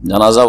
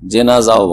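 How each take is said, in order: First: The first vowel is an open 'a' sound. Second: The first vowel is an 'e' sound. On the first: "জিমে ফাতা দিয়ে" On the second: "জেনাজাও বলা হয়"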